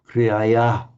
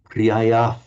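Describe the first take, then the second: No difference in how they are said.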